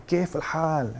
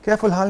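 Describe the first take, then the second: First: حال squeezed from the throat, like a native Arab; Arabic throat sound. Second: کیف الحال with a plain Urdu h in حال; کیف الحال flat, with no throat sound; wrong way. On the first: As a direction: say کیف الحال with a guttural Arabic ح. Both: Shown as a demonstration. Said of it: "حال گلے سے نکلنا ہے".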